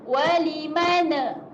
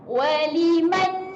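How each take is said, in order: First: The final n is followed by an extra vowel. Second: The word ends cleanly on the n sound. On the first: The speaker calls it wrong. "maksud lantun tu kalau kita baca walimana" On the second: The speaker calls it right. "kena bacakan nyata"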